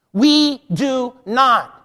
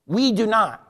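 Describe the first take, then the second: First: "We do not" drawn out slowly, each word weighted; slow, deliberate stress on every word of "We do not"; emphatic repeat. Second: Said in the usual way. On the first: Real, not acted. Preacher repeats the point to the congregation, slow and emphatic "We do not". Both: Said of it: "I'm gonna say it again".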